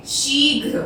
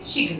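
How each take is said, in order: First: शीघ्र said with a long ee, sheeghr; correct long vowel. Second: शीघ्र said with a short i, clipped shigr; wrong short vowel. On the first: Teacher giving students the correct long-vowel form. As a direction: stretch the ee in शीघ्र. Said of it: "बड़ी की मात्रा लगाएंगे शीघ्र". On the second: Teacher showing students the wrong short-vowel form. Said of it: "पर ये गलत है". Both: Shown as a demonstration.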